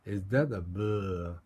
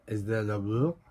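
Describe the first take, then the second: First: The pitch falls at the end. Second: The pitch rises at the end. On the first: It is a sarcastic question. "약간 비꼬는 듯한 거 할 때는 끝을 내리기도 합니다" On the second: It is a genuine question. "의문문은 뒤를 올리는"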